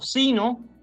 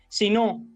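First: The stress is on the first syllable. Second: The stress is on the last syllable. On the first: The speaker calls it right. "esa sería la pronunciación adecuada" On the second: The speaker calls it wrong. "No es apropiado decir"

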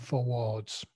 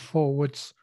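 First: The ending of the word is drawn out. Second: The ending of the word is short. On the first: The speaker calls it wrong. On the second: The speaker calls it right.

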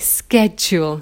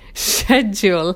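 First: The word begins with an sk sound. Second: The word begins with an sh sound. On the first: The speaker calls it right. "We should say schedule" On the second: The speaker calls it wrong. "we don't say shul, so we shouldn't say schedule"

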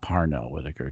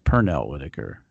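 First: The first name begins with a 'par' sound. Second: The first name begins with a 'per' sound. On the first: The speaker calls it wrong. "Not Parnell Whitaker" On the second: The speaker calls it right. "it's Pernell Whitaker"

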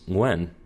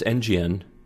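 First: The name is said as one blended word. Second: The name starts with the letter name N. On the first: The speaker calls it right. "no, it's Nguyen" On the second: The speaker calls it wrong. "you would say the letter N, and then you would say GN"

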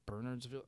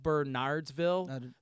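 First: The name is pronounced the way locals say it. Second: The name is pronounced just as it is spelled. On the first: "but it's pronounced Bernardsville" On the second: "It's spelled Bernardsville"

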